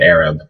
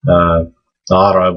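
First: It starts directly with a plain vowel. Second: It starts with a throaty, constricted consonant. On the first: "We just take it out entirely"

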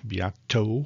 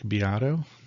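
First: The middle consonant is a clear T sound. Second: The middle consonant sounds like a soft D. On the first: The speaker calls it right. "Beato with a T" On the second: The speaker calls it wrong. "It sounded like a D"

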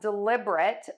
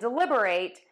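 First: The final syllable is a weak 'rit'. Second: The final syllable is a full 'rate'. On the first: It is an adjective: done on purpose. "which is an adjective meaning to do something intentionally" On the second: It is a verb: to think carefully. "which is a verb meaning to consider carefully"

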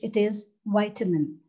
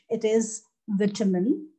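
First: The first syllable rhymes with 'bite'. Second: The first syllable rhymes with 'bit'. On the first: This is the American form. "In American English" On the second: This is the British form. "In British English"

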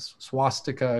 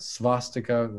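First: The s is followed by a W sound. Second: The s is followed by a V sound.

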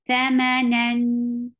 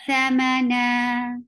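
First: The word ends with an n sound. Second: The word ends with a lengthened vowel. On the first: The reciter continues without stopping on the word. "You will give the wasut at the end because you are pronouncing tanween" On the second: The reciter stops on the word. "you just have to remove one fatha, and that will be mad'arid"

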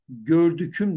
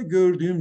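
First: A hard k sound comes before the ending. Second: A soft ğ sound comes before the ending. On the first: The speaker calls it wrong. "gördüküm demiyoruz" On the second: The speaker calls it right. "gördüğüm diyoruz"

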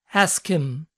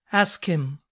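No difference in how they are said.

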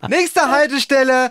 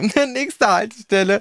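First: The voice sounds excited and euphoric. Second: The voice carries a small amused smile. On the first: The speaker feels totally cool about it. "Total cool, total euphorisch" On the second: Someone just said something funny. "manchmal hört man noch so einen kleinen Schmunzler"

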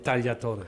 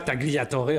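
First: The name is said with an Italian pronunciation. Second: The name is said with a French pronunciation. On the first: The speaker calls it right. "Je le dis à l'italienne" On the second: The speaker calls it wrong. "on ne dit pas Tagliatore"

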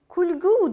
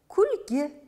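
First: The final vowel is a u sound. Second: The final vowel is an i sound. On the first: This is how people usually say it. "kulgu deb aytiladi ko'pincha" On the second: This is how the word is written. "Ammo kulgi deb yozilishi kerak"

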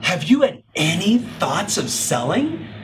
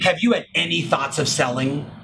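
First: The question is asked with an expressive, animated tone. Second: The question is asked in a plain, flat tone.

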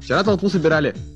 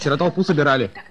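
First: It is said with lively, expressive intonation. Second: It is said in a flat, unexpressive tone. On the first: The speaker calls it right. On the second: The speaker calls it wrong.

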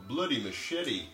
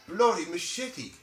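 First: It is read plainly as an item name. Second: It is exclaimed in a put-on British accent.

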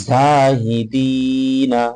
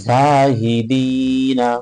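Both takes have the same delivery.

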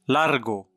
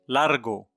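No difference in how they are said.

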